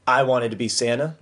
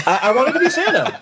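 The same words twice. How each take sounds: First: Said in the usual way. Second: High, laughing insistence; squeaky earnest protest through laughter; insistent confession. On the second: Real, not acted. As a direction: repeat it emphatically, voice shooting up. Repeats confession emphatically after reaction.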